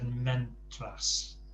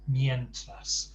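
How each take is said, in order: First: The first syllable sounds like men. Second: The first syllable sounds like myen. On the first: The speaker calls it wrong. "I think you said mentras" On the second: The speaker calls it right. "especially get those vowel sounds right"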